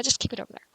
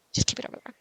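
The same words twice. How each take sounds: First: Said in the usual way. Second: Whispering the repeat to the mouse; whispered aside to the cursor. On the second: Pretend. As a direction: breathe the same words again, unvoiced.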